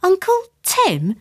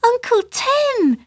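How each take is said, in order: First: High, slow questioning echo; baffled high-pitched query; bewildered. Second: Put-on very high, drawn-out girlish call; high excited greeting; child's shout. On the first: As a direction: repeat it slowly in disbelief. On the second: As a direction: call out gleefully as a little girl. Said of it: "shouted the girl". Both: A narrator's reading.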